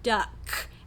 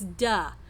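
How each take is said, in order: First: The word ends with a K sound. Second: The word ends with no final consonant. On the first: The speaker calls it right. "the word duck" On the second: The speaker calls it wrong. "that's a final consonant omission or deletion"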